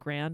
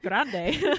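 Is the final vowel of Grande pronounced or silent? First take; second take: silent; pronounced. First: The word ends without a final vowel sound. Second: The word ends with a pronounced final vowel. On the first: This is how the film's makers say the name. "I think, is how they pronounce it" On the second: This is the Spanish way of saying the name. "I'm like Spanish, so I'm like Grande"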